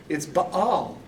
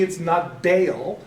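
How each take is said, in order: First: Baal said as bah-al; Baal with a broad ah; right Baal. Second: Baal said slowly as bay-al; Baal drawn out as bay-al; wrong Baal. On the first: Teacher gives students the right Baal as bah-al. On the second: Teacher shows students the wrong Baal as bay-al. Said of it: "for me, it's not". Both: Shown as a demonstration.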